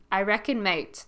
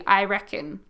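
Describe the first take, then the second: First: Broad Aussie I reckon, mate; Aussie slang said with a grin; very Australian. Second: Relaxed Australian I reckon; I reckon with easy Australian vowels; Aussie I reckon. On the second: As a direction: say I reckon like a local. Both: Shown as a demonstration. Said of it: "That's very Australian right there".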